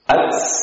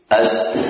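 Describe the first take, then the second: First: The t ends with a hissing s sound. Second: The t ends with a plain puff of breath. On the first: The speaker calls it wrong. "mengganti hams dengan suara sin" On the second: The speaker calls it right. "dia mengalir namun tidak terlalu mubalagh"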